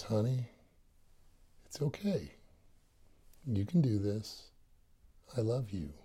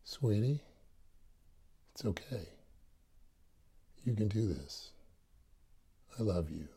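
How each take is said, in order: First: Gentle inner voice. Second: Softer gentle inner voice. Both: Retold or imitated. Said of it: "that voice says".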